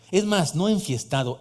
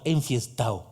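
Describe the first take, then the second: First: "enfiestado" with every sound, d fully said; careful "enfiestado" with the d kept; "enfiestado" pronounced in full; full form. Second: "enfiestao" with the d dropped, lower and casual; relaxed street "enfiestao", no d; "enfiestao" said the slangy way. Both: Shown as a demonstration. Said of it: "A ver, diga enfiestao".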